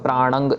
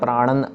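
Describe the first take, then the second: First: The word ends in an ng sound. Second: The word ends in a plain n sound. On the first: "इसको हम प्राणंग या प्राणन नहीं कहना" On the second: "इसको हम प्राणंग या प्राणन नहीं कहना"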